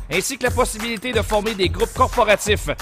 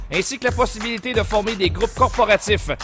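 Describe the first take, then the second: Both takes have the same delivery.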